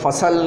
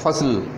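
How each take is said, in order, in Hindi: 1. अंतिम व्यंजन से पहले एक स्वर डाला जाता है। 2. अंतिम व्यंजन बिना किसी स्वर के जुड़े होते हैं। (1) "नहीं पढ़ेंगे" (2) "बल्कि क्या है फ़सल"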